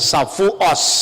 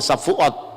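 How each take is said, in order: First: It ends with an s sound, Ashkenazi style. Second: It ends with a t sound, Sephardi style.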